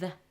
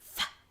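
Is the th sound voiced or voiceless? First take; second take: voiced; voiceless. First: The th sound is voiced, with vibration. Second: The th sound is voiceless, without vibration. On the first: "So the voiced sound is the" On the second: "Now the unvoiced sound is th"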